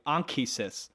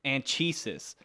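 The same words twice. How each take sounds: First: The name is said like Ankh-Isis. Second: The name is not said like Ankh-Isis.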